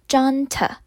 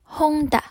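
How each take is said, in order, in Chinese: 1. 这是英式英语的发音。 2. 这是西班牙语的发音。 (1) "英式发音叫做junta" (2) "西班牙文的念法叫做honda"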